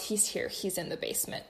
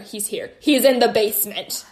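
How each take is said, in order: First: It is read flatly, without much emotion. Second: It is read with alarm and emphasis.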